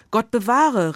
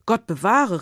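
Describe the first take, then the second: First: A louder, higher cry, Gott bewahre falling hard; exclaimed. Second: A mildly raised cry of dismay, falling on bewahre; exclaimed. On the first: Frau Bartolotti to Konrad, a louder horrified exclaim. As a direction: Frau Bartolotti cries out in horror. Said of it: "rief die Frau Bartolotti". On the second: Herr Egon to Konrad, a mild horrified exclaim. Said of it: "rief der Herr Egon". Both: Acted.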